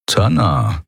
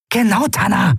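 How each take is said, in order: First: Thoughtful repeat. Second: Genau said high and punchy with a falling end; emphatic agreement. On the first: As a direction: turn the name Tanna over in the mind. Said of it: "wiederholte er". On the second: Amalin backing Lun, high emphatic Genau. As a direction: snap out Genau as firm backing. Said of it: "bekräftigte Amalin". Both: A narrator's reading.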